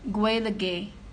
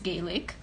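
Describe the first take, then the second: First: It is said the way midwestern Ireland says it. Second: It is said the way northwestern Ireland says it. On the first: "in the Midwest" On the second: "in the northwest, again in Ulster"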